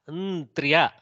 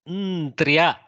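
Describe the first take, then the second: The two takes are said the same way.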